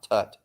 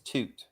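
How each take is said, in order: First: The vowel is a short 'uh' sound. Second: The vowel is a long 'oo' sound. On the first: The speaker calls it wrong. "not Tut" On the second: The speaker calls it right. "His name was Toot"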